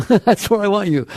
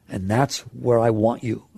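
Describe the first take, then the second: First: A laugh, then lifted and brighter. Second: Said in the usual way. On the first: Real, not acted. Teacher repeats the point to the class, laughing.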